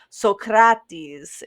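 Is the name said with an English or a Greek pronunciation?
Greek. The name is said the modern Greek way. "so much more passionate"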